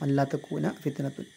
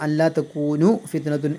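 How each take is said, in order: First: The verb ends with an a vowel. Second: The verb ends with a u vowel. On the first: The particle is read as the one that puts the verb in the subjunctive. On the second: The particle is read as the lightened form that leaves the verb unchanged.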